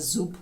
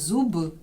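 First: The final consonant is voiceless. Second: The final consonant is voiced. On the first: "оглушати дзвінки приголосні в кінці слів" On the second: "ми кажемо не зуб"

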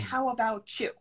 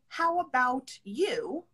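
First: The 't' and 'you' merge, sounding like 'abou-chew'. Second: The 't' and 'you' are kept separate, sounding like 'about you'. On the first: "I say how about chew" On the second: "I don't say how about you"

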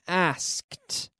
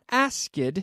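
First: It ends in a T sound, one syllable. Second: It has an extra syllable at the end. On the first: The speaker calls it right. "No extra syllable" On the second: The speaker calls it wrong. "Not asked"

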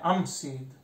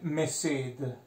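First: The vowel comes before the m sound. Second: The vowel comes after the m sound. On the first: The speaker calls it right. "è am sed" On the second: The speaker calls it wrong. "non è me sed"

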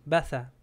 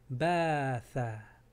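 First: The vowels are short and said quickly. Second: The vowels are drawn out and long. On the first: The word has no lengthening letter. "Si no tenía el alef sería baza. Muy rápido" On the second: The word has a lengthening letter. "como hay el alef necesitamos añadir la vocal de A"

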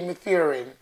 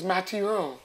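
First: The name is pronounced with English sounds. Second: The name is pronounced with French sounds. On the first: The speaker calls it wrong. "The English say Mathurin" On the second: The speaker calls it right. "My name is Mathurin"

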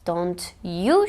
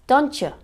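First: The t and y sounds stay separate. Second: The t and y blend into a ch sound. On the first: "şeklinde telaffuz edilmesini beklerken" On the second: "hafif bir Ç sesi var"

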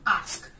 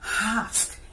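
First: A long ah vowel is followed by sk. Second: The word starts with a breathy h sound. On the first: The speaker calls it right. "You have longness form ah ... when you add that to consonant close to sk, it gives you ask" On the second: The speaker calls it wrong. "H-A-S-K, that is the breathe into the word"

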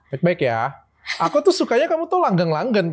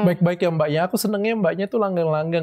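First: It is said in a mocking, sarcastic tone. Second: It is said in a polite, sincere tone.

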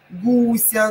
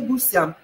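First: The stress is on the second syllable. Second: The stress is on the first syllable. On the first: The speaker calls it right. "Кого чего? Гуся" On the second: The speaker calls it wrong. "но не гуся. Это нужно запомнить"

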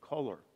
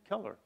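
First: The first vowel sounds like the u in cut. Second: The first vowel sounds like the e in bed. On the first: The speaker calls it right. "no, it's color" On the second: The speaker calls it wrong. "you're saying Keller, like Helen Keller"

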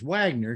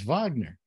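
First: The name begins with a W sound. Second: The name begins with a V sound. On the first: "when I first saw it, I saw it as Wagner" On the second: "it would be pronounced with a V. So it's Wagner"

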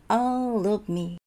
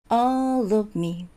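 No difference in how they are said.

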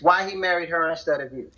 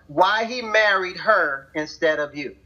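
First: It is said at normal speed. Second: It is said slowly.

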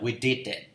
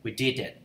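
Both takes have the same delivery.

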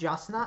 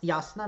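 First: The name is said with English pronunciation. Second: The name is said with Serbian pronunciation. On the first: The speaker calls it wrong. "not Jasna" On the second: The speaker calls it right. "whose name is pronounced Jasna"

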